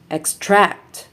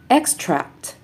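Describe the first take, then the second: First: ExTRACT, stressed on the second syllable; light ex, strong TRACT in extract; verb stress. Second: EXtract, stressed on the first syllable; high EX in Extract, then fall; noun stress. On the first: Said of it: "verbs are stressed on the second syllable". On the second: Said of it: "nouns are stressed on the first syllable". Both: Shown as a demonstration.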